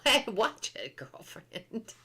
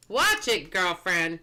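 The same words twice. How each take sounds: First: Sassy warning through a laugh; giggly mock threat to a friend; laughing sass. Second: Said in the usual way. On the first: Mock warning a chat friend, sassy and giggling.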